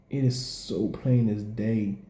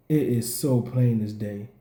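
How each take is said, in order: Both takes have the same delivery.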